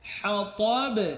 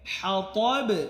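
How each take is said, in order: No difference in how they are said.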